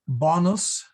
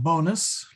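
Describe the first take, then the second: First: The first vowel is a short O. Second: The first vowel is a long O. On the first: The speaker calls it right. "it is actually a short uh, O, so it should be bonus" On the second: The speaker calls it wrong. "not bonus, like what we all hope we get in our paycheck"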